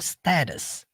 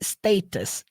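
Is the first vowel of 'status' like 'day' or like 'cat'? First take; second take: like cat; like day. First: The first vowel sounds like 'cat'. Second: The first vowel sounds like 'day'. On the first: "Geralmente no americano eles falam status" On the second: "ele fala no modo britânico"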